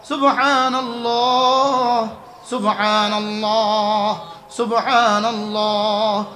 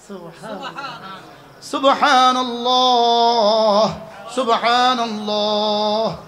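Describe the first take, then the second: The two takes are said the same way.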